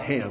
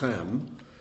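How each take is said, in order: First: The name begins with a plain h sound. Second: The name begins with a throaty ch sound. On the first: The speaker calls it wrong. "it's not Ham" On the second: The speaker calls it right. "it's actually Chem, is a ch sound"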